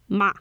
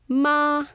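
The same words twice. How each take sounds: First: The pitch falls from high to low. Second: The pitch rises from low to high. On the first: It is a word to scold someone. "This goes down" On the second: It means hemp. "This tone goes up"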